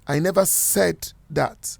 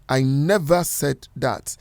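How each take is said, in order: First: The word "said" carries the main stress. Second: The word "never" carries the main stress. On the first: It was implied or written, not said. "if you are to stress the word "said,"" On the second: It flatly denies ever saying it. "If you're stressing the word "never,""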